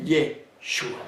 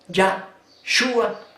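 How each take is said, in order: First: The first syllable has a short 'eh' vowel. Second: The first syllable has an open 'ah' vowel. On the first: The speaker calls it wrong. "la pluma mentirosa de los escribas" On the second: The speaker calls it right. "Yahshua en lugar de Yeshua"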